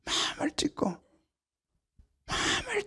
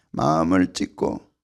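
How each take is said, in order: First: Hushed unvoiced repeat; whisper. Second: Said in the usual way. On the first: Real, not acted. Preacher whispering the call to tear the heart. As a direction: let it fall to a whisper.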